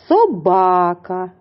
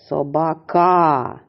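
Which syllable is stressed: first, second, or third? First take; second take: second; third. First: The stress is on the second syllable. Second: The stress is on the third syllable. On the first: The speaker calls it right. "Наголос на другому" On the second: The speaker calls it wrong. "А тепер поставимо наголос на третій склад"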